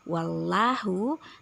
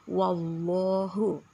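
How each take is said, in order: First: The L sound is light and thin. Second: The L sound is heavy and thick. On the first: The speaker calls it wrong. "jangan hanya membaca wallahu" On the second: The speaker calls it right. "harus ditebalkan"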